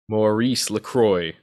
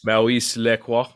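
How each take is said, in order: First: The name is said with an American accent. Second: The name is said with a French accent. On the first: "I'll give you the American pronunciation first" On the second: "if you want to get all fancy schmancy"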